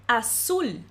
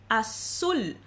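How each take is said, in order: Both takes have the same delivery.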